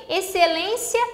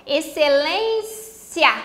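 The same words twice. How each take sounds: First: Said in the usual way. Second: "excelência" slowly broken up, "cia" set apart at the end; split into syllables. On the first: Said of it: "Olha só, excelência". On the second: Shown as a demonstration. Teacher showing the final diphthong, "excelência" split slowly before "cia". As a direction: stretch "lên", then detach "cia" in "excelência". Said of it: "Aqui eu tenho o cia".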